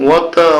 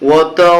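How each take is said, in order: Both takes have the same delivery.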